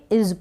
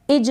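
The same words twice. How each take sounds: First: इज pronounced "iz"; correct z sound. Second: इज pronounced "ij"; wrong j sound. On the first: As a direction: end इज with a clear z. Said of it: "इज पढ़ेंगे". (इज को ज़ की ध्वनि पर खत्म करें) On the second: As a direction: end इज with a j sound. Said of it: "इज नहीं पढ़ेंगे". (इज को ज की ध्वनि पर खत्म करें) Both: Shown as a demonstration.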